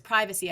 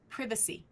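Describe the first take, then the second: First: It is said with an American pronunciation. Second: It is said with a British pronunciation. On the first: It is the reader's own usual form. The speaker calls it wrong. "she says privacy" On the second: It is the form the trainer demands. The speaker calls it right. "no, no, no, mm-mm, privacy"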